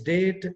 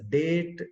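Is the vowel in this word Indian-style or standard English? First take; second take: standard English; Indian-style. First: The vowel sounds like standard English. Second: The vowel sounds like a typical Indian accent.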